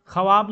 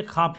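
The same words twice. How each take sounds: First: ख्वाब with the व sounded, kha-wab; spelled-out form. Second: ख्वाब said khaab, silent व; spoken form. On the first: Teacher contrasting the wrong reading of ख्वाब with the व voiced. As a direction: voice the व in ख्वाब as written. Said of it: "नहीं पढ़ते". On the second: Teacher gives the correct reading of ख्वाब with a silent व. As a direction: drop the व from ख्वाब. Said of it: "पढ़ते हैं". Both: Shown as a demonstration.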